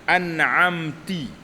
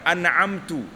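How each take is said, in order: First: The word ends with an i vowel. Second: The word ends with a u vowel. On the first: "Seperti mengucapkan an'amti" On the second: "Atau bagi depan"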